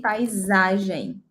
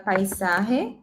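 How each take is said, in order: First: "paisagem" as pie-ZAH-zhen; Portuguese pronunciation. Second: "paisaje" as pie-SAH-heh, J as h; Spanish pronunciation. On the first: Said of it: "in Portuguese". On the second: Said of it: "in Spanish". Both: Shown as a demonstration.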